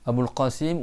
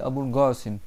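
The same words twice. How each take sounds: First: Qasim starts with a deep back-of-throat Q sound. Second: Qasim starts with a hard G sound.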